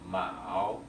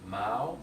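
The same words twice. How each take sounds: First: The syllable is said with the third tone. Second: The syllable is said with the second tone. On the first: It means rivet. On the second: It means anchor of a ship.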